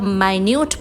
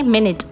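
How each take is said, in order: First: The first syllable sounds like 'my'. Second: The first syllable sounds like 'mih'. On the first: It means very small or detailed. "जब माइन्यूट बोला जाता है" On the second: It means one sixtieth of an hour. "घंटे का साठवां हिस्सा"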